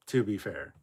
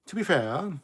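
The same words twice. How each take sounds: First: Said in the usual way. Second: "To be fair" repeated much higher and louder. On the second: Shown as a demonstration. Cohost repeating for emphasis, high and loud.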